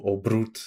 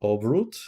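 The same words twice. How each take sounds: First: Obrut with a rolled Polish R; Obrut, tongue-tapped R after the B. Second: Obrut with a plain English R, rising at the end; unrolled R. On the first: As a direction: roll the R in Obrut. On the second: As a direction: say Obrut without rolling the R. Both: Shown as a demonstration. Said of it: "Do you roll the R's in Polish".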